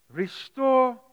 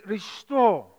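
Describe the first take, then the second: First: "Restore" lifted high and stretched out; drawn-out restore. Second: "Restore." dropped in a short, firm fall. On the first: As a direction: open "Restore" on a long, high rise. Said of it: "it says". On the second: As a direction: land "Restore." flat and decisive. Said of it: "It says". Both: Shown as a demonstration.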